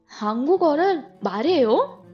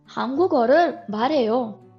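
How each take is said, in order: First: The voice rises at the end. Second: The voice falls at the end. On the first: It asks whether the listener speaks Korean. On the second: It states that the speaker speaks Korean.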